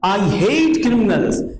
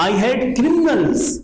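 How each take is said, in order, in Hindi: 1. ज़ोर 'hate' शब्द पर है। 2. ज़ोर 'criminals' शब्द पर है। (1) "मैं क्रिमिनल से नफरत करता हूं, उनकी हत्या नहीं करता।" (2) "किस पर जोर है? अपराधियों पर।"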